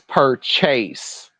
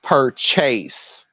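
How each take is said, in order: First: The second syllable is a full 'chase'. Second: The same.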